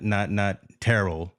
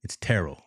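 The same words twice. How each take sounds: First: "Terrell" with the stress flattened, said slowly; "Terrell" drawn out slow, the wrong vowel sounds. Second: "Terrell" with the Texas inflection on the vowels; "Terrell" said the proper way, vowels leaned on; right way to say Terrell. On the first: Host shows listeners the wrong way to say Terrell. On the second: Host corrects the name for his listeners, Texas pronunciation. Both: Shown as a demonstration. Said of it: "There's a little inflection there on, on the vowels".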